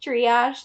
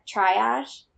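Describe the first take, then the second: First: "Triage" said as ree-ahzh with a rising question; "Triage" as tree-ahzh, checking it is right; corrected pronunciation. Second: "triage" said as try-ahsh, rising and unsure; "triage" with try- at the start and a rising end; unsure pronunciation. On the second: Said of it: "I don't know how to say that word". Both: Real, not acted.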